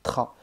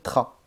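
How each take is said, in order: No difference in how they are said.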